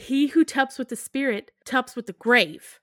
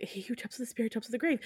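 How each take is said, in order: First: Loud, higher, emphatic pronouncement; proclaimed warning. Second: Quick, softer recital; rattled-off recollection. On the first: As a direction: punch it out like a solemn curse. Warning first proclaimed, later rattled off. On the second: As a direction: run through the warning in a hurry. Same warning recalled in passing. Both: Retold or imitated.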